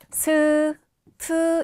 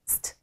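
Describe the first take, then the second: First: Each consonant carries its own added vowel sound. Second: The s and t are joined without vowels. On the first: The speaker calls it wrong. "이렇게 발음하면 어색하고요" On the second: The speaker calls it right. "st 이렇게요"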